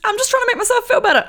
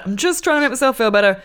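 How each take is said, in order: First: Defensive high. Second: Said in the usual way. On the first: Real, not acted. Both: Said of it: "I'm sure, but just".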